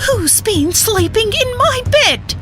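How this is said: It is said in a soft, medium-deep voice. "she cried in her soft, middling deep voice"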